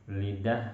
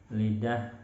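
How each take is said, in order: The two takes are said the same way.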